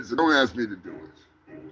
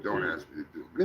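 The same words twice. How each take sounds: First: Said in the usual way. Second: Much softer and lower, rushed under the breath; quiet fast mutter. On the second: Real, not acted. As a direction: throw it away quickly to yourself. Muttered repeat of his refusal.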